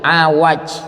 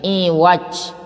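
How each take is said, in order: First: The word begins with an open 'a' vowel. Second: The word begins with a front 'i' vowel. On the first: "dengan fathah ain dan waw" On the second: "bil kasri"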